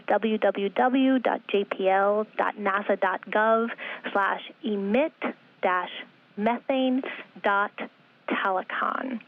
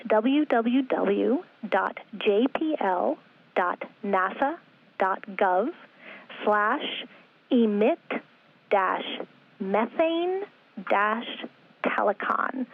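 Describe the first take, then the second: First: Slow read-out in longer connected chunks; slow repeat. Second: Web address read slowly, piece by piece; slow dictation. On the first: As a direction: repeat the address slowly, linking the first parts together. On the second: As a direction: spell it out slowly, pausing after each part. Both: Real, not acted. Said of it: "I'll say it slowly".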